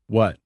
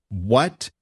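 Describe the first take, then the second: First: Short, blank what with falling tone; blank answer. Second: Incredulous what, swooping upward; startled reaction. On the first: Dad watching TV answers his child, blankly. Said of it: "he blankly answered". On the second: Dad hears his computer crashed, startled. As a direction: react in disbelief, pitch rising sharply. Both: A narrator's reading.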